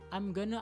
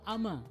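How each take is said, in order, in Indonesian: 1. Going dan to digabung menjadi satu kata. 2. Seluruh frasa dipadatkan menjadi dua suku kata. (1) "lebih singkat" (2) "lebih singkat"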